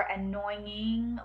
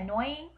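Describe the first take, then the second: First: Second, drawn-out try at "annoying"; alternative pronunciation. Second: First slow try at "annoying"; trying a pronunciation. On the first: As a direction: offer "annoying" slowly as the other option. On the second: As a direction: test "annoying" slowly, as one option. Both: Shown as a demonstration. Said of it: "I don't know if I say it right".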